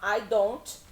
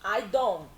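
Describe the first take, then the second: First: The final T is clearly released. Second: The final T is cut off. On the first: The speaker calls it wrong. "Em vez de falar I don't" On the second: The speaker calls it right. "a gente teria que cortar aqui a letra T"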